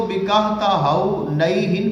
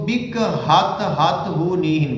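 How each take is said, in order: First: بکہتہونیہن with a single ta, bakhtahuniyan; بکہتہونیہن said slowly with one ta; بکہتہونیہن in five syllables; shorter reading. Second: بکہتہتہونیہن with a doubled ta-ta; بکہتہتہونیہن said slowly with an extra ta; بکہتہتہونیہن as bakh-ta-ta-huniyan; longer reading. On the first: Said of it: "کچھ لوگ اس کو بکہتہونیہن پڑھتے ہیں". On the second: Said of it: "کچھ اس کو بکہتہتہونیہن پڑھتے". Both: Shown as a demonstration.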